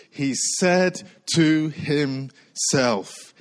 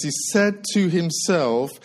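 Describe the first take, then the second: First: "he said to himself" very slow, word by word; stress on himself. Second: Said in the usual way. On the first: Shown as a demonstration. Preacher pointing out key words "said to himself", slow emphasis. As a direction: space out "to him-self" so each piece lands. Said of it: "The words I want to focus on is this".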